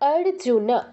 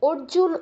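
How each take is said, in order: First: The final 'n' carries a full vowel after it. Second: The name ends on a bare 'n' consonant. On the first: The speaker calls it right. "আমাদের ন পূর্ণ উচ্চারণ করতে হবে" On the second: The speaker calls it wrong. "অর্জুন উবাচ নয়"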